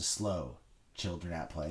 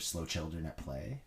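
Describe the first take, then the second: First: It is read slowly and separately. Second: It is read fast, run together.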